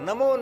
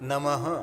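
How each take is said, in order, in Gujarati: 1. શબ્દનો અંત o સ્વરથી થાય છે. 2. શબ્દનો અંત શ્વાસવાળા h અવાજથી થાય છે. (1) "નમો નહીં"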